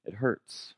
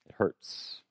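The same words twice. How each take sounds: First: Softly voiced "It hurts", lifting at the end. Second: Whispered, almost breathless "It hurts"; hushed whisper of "It hurts". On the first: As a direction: say "It hurts" quietly with a slight rise. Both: Real, not acted.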